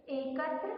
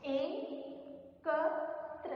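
First: Said in the usual way. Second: एकत्र drawn out very slowly, each syllable stretched; slow syllable demo. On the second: Shown as a demonstration. Teacher to class, modelling correct pronunciation, very slow and drawn out. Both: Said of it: "सही उच्चारण करना है".

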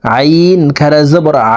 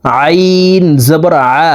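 First: Final আ squeezed in the throat, one alif long; long throat ain. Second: Long আইন, then short throaty আ; final আ squeezed in the throat, short; short throat ain. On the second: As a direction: make আ from mid-throat, briefly. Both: Shown as a demonstration. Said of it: "হলকের মধ্যখান থেকে উচ্চারণ".

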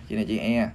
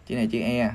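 Both takes have the same delivery.

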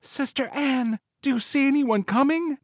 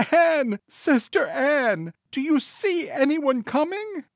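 First: Very high wifely voice, held back; soft call to sister. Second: Very high, drawn-out call in the wife's voice; crying out to sister. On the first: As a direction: call to your sister without shouting, high-pitched. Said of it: "again called softly to her sister". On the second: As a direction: cry the name out slowly, high-pitched. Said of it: "she once more cried out". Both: A narrator's reading.

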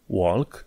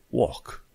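First: "walk" with the L sounded; wrong pronunciation. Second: "walk" with a silent L; correct British pronunciation. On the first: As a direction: say "walk" with an audible L. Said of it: "Walk nu e walk". ("walk" cu L pronunțat, greșit) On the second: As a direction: say "walk" as "wawk", no L. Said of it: "e walk". ("walk" fără L) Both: Shown as a demonstration.

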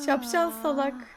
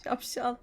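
First: Louder insult. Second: Whisper. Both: Acted. Insulting the Sim.

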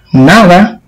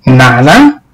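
First: Said in the usual way. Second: "¿Nada?" asked lower with a doubting rise; incredulous. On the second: Acted. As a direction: echo "Nada" back in disbelief. Aunt echoes in disbelief.

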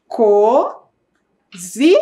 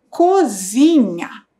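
First: Cozinha drawn out very slowly, rising at the end; slow sounding out. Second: Cozinha said slowly and settled, falling at the end; slow reading. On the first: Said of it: "Começa com co". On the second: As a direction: give the finished word Cozinha slowly. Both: Shown as a demonstration.

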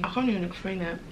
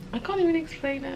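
First: Said in the usual way. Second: "I can't even explain it" lifted up high; higher, emphatic repeat. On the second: Real, not acted. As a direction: say it again, much higher and overwhelmed.

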